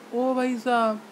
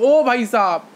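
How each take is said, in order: First: It is said softly, at low volume. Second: It is said loudly, almost shouted. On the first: "ये है soft, यानी बहुत कम loudness" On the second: "जोर से बोलने का ज्यादा लाउडनेस"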